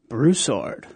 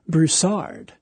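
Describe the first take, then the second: First: The stress is on the first syllable. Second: The stress is on the second syllable. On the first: The speaker calls it right. "So the accent is on the first syllable" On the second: The speaker calls it wrong. "a little bit of a mispronunciation when they say Broussard"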